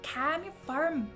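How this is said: It is said in an Irish accent. "And then Irish would be like"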